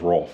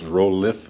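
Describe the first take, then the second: First: The name is said as one syllable. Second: The name is said as two syllables. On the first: The speaker calls it wrong. "I don't think it's Rolf" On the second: The speaker calls it right. "I think it's Rolif"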